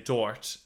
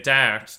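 First: The vowel is a rounded 'aw' sound. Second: The vowel is an open 'ah' sound. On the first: This is how certain posh kids say it. "they say dort" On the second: This is the ordinary local way of saying it. "they don't say dart"

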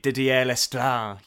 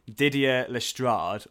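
First: The name is said with a French accent. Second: The name is said with an English accent.

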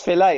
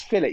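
First: The word is said the French way, without a final t. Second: The word is said the English way, with a final t. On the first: The speaker calls it wrong. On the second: The speaker calls it right.

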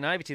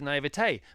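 First: It is said the British way. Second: It is said the American way.

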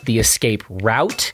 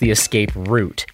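First: Route is pronounced the American way. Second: Route is pronounced the Canadian way. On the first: The speaker calls it wrong. "because I happen to live south of Canada, I sometimes in this episode call it" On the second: The speaker calls it right. "James's preferred pronunciation"

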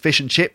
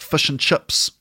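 First: It is said with ordinary British vowels. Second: It is said with New Zealand vowel sounds. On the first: "the phrase fish and chips" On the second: "sounds like fish and chips"

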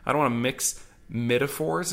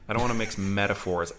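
First: The sentence has a Kiwi-like mispronunciation. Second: The sentence has a standard pronunciation. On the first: The speaker calls it wrong. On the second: The speaker calls it right.

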